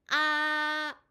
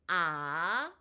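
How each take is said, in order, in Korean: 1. 음높이가 처음부터 끝까지 높고 평평하게 유지돼요. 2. 음높이가 중간에서 높게 올라가요. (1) "아로 일성을 발음합니다" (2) "얘를 다시 아로 이성을 발음해 볼게요"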